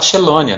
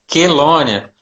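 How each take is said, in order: First: The word begins with an sh sound. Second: The word begins with a k sound. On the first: The speaker calls it wrong. "Pelo amor de Deus, não fala xelônia" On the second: The speaker calls it right. "qualquer som com C H é som de K"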